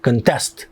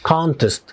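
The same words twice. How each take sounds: First: The stress is on the second syllable. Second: The stress is on the first syllable. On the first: It is a verb meaning to compete. "لو حولناها وخليناها verb" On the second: It is a noun meaning a competition. "فالاسترس على المقطع الاول لان هي ناون"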